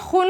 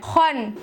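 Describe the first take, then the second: First: The vowel is rounded, like u. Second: The vowel is open, like a. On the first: The speaker calls it wrong. "ख को मोटा करने में वो पेश की आवाज ला देते हैं। इस तरह से ये खुन हो जाएगा।" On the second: The speaker calls it right. "सिर्फ मुंह के अंदर हवा भरनी है और कुछ नहीं करना है, गोल होठ नहीं करने हैं।"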